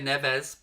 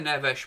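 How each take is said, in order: First: The name is said with English pronunciation. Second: The name is said with Portuguese pronunciation. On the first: The speaker calls it wrong. "but that's not how it's pronounced as far as I'm aware" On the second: The speaker calls it right. "I believe, how it's pronounced in Portuguese"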